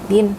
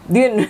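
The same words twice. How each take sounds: First: It is said very softly and weakly. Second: It is said in a firm, manly voice.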